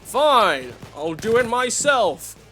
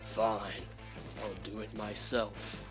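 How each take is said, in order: First: It is said in a Bulldozer-style voice. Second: It is said in a Thanos voice.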